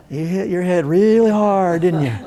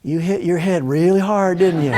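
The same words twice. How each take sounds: First: Put-on Texas accent. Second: Said in the usual way. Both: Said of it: "she's got this Texas accent".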